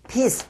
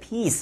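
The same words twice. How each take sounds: First: The vowel is short and clipped. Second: The vowel is long and drawn out. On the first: The speaker calls it wrong. "peace, peace 하니까요" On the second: The speaker calls it right. "평화라고 하면서 peace 해야 되는데"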